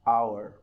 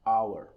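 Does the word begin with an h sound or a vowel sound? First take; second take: vowel sound; vowel sound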